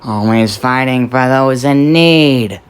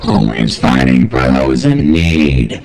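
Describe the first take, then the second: First: The voice is heard without added audio effects. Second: The voice is heard with added audio effects. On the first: "Without the effects" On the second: "here it is with the effects"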